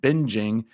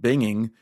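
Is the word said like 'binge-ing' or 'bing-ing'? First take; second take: binge-ing; bing-ing. First: It is said with a soft 'j' sound, like 'binge'. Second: It is said with a plain 'ng' sound, like 'bing'. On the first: It comes from the word binge. The speaker calls it wrong. "they mispronounced it binging" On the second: It comes from the name Bing. The speaker calls it right. "the 90s slang term binging to describe emulating Chandler's behavior"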